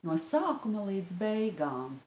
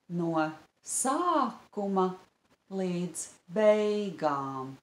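First: The phrase is said at a normal, natural pace. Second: The phrase is said slowly, syllable by syllable.

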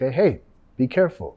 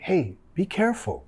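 First: It sounds annoyed and warning. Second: It sounds worried and caring.

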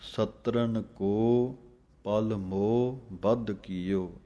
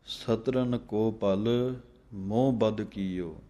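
First: There is a short pause after ko. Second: The phrase runs together without a pause after ko. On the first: The meaning and the pause points are clear. The speaker calls it right. "ਕੋ ਦੇ ਉੱਤੇ ਥੋੜ੍ਹਾ ਰੁਕ ਕੇ ਪਲ ਮੋਹ, ਫਿਰ ਥੋੜ੍ਹੀ ਜਮਕ, ਬਧ ਕੀਓ ਵੱਖਰਾ ਪੜ੍ਹਨਾ ਹੈ। ... ਇਹ ਢੰਗ ਹੈ" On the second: It is unclear where the meaning and the pause lie. The speaker calls it wrong. "ਕਈ ਪੜ੍ਹ ਜਾਂਦੇ ਹਨ"

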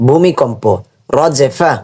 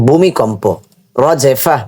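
Both takes have the same delivery.

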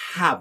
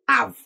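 First: The word starts with a breathy h sound. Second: The word starts with a vowel, no h. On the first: The speaker calls it right. "It is have" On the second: The speaker calls it wrong. "I cannot just say have"

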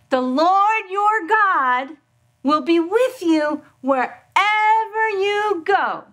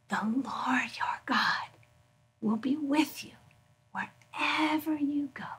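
First: The words are said very loudly. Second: The words are whispered very softly. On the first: "can you say it really loud, but not screaming?" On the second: "can you say it in a whisper?"

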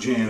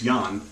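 First: The name starts with an English j sound. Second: The name starts with a y sound. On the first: The speaker calls it wrong. "it's not Jan" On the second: The speaker calls it right. "it's Jan"

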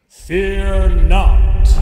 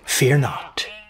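First: It is said very loudly, with thunderous force. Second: It is said quietly, without much force. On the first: The message makes the listeners tremble. The speaker calls it right. "He said that made us quake" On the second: The message fails to impress the listeners. The speaker calls it wrong. "That hardly rent the heavens asunder"

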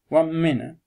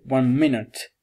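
First: The final T sound is dropped. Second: The final T sound is clearly pronounced. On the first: "viene saltata la pronuncia della lettera T" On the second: "che sarebbe la pronuncia precisa"

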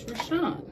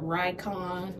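First: The C has an S-like sound. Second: The C does not have an S-like sound. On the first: The speaker calls it right. "sometimes the C can carry an S sound" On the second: The speaker calls it wrong. "it's not Rycon"

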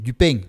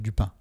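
First: It has a strong local regional accent. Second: It has a standard Parisian accent. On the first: "avec un accent encore plus prononcé" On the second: "avec un accent plus standard ou parisien"

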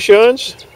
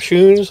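First: The vowel is short, as in sun. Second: The vowel is long, as in soon. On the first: The speaker calls it wrong. "I've been saying wrong so long" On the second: The speaker calls it right. "or shoons, I should say"

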